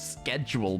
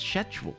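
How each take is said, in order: First: The word begins with an 'sk' sound. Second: The word begins with an 'sh' sound. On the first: This is the American way of saying it. The speaker calls it wrong. "America tells me it's schedule, but that sounds wrong to me" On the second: This is the English way of saying it. The speaker calls it right. "It's schedule"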